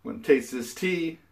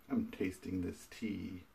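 First: Brighter, livelier retake; upbeat. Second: Said in the usual way. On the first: Shown as a demonstration. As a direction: say it with fresh energy. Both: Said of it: "cut, start".

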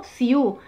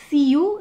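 First: "ciu" with the stress on the final u; vurgu on second vowel. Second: "ciu" with the stress on the first vowel, i; yanlış vurgu. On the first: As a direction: say "ciu" gliding over i onto a long, stressed u. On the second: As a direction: say "ciu" leaning on the i, letting the u trail. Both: Shown as a demonstration. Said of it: "es la segunda".

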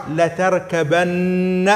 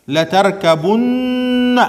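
First: لتركبن very slow, with بَ and a long doubled ن; the alternative reading of لتركبن, chanted slowly; slow recitation. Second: لتركبن higher and very slow, with بُ and a long doubled ن; slow recitation. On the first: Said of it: "وفي قراءة أخرى". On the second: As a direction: chant لتركبن slowly and lean on the ن. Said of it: "هذه قراءتنا". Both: Shown as a demonstration.

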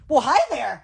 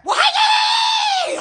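First: Said in the usual way. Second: Much higher, slow, drawn-out hey there; sing-song greeting. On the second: Acted. Greeting someone playfully, much higher and slow sing-song. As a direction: stretch it high and slow like a sing-song hello.

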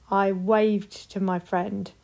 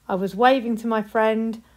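First: Slowed down, stressing waved; slow, careful past tense. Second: Said in the usual way. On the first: Shown as a demonstration. Teacher modelling the past tense slowly. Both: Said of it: "put them in two sentences".

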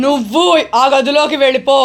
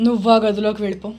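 First: Insistent ghost order. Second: Lower, brisk instruction; quick order. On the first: Repeated order, drawn out. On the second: Ghost sends person to other room, quick and low-key. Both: Pretend.

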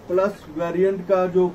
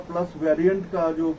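The two takes are said the same way.

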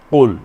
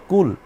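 First: কুল with a plain front k, the word for eat; কুল said with an ordinary Bengali k; light front k in কুল. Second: কুল started far back in the throat like Arabic qul; hard guttural q in কুল; Arabic qaf. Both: Shown as a demonstration. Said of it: "একটা হলো কুল, আর একটা হলো কুল".

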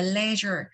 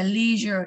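First: "leisure" with a short open e, LEH-zher; British "leisure". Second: "leisure" with a long ee, LEE-zher; American "leisure". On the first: Teacher showing the British reading, open e sound. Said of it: "một là leisure". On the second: Teacher showing the American reading, long ee sound. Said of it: "người Mỹ sẽ đọc là leisure". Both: Shown as a demonstration.

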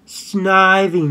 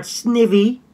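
First: Snivy said SNY-vee, long eye vowel; correct pronunciation. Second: Snivy said SNIV-ee, short i; Snivy as SNIV-ee, pitched up at the end; wrong pronunciation. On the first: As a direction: say Snivy slowly with a drawn-out 'eye' in the first syllable. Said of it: "It's pronounced Snivy". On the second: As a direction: say Snivy higher, with a short i as in 'give'. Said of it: "not Snivy". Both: Shown as a demonstration.

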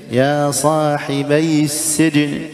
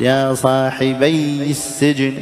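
First: «صاحبي» recited with a short single ya with kasra; slow chant, keep the ya of «صاحبي» light; undoubled ya. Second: «صاحبي» chanted with a held, doubled ya; slow chant, press on the ya of «صاحبي»; wrongly doubled ya. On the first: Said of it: "وليست ياء مشددة". («صاحبي» بياء مكسورة غير مشددة) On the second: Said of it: "بعضهم خطأ يشددها". («صاحبي» بتشديد الياء خطأً) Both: Shown as a demonstration.

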